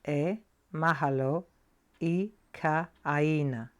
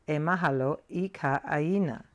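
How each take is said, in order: First: It is said at a slower pace. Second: It is said at a faster pace.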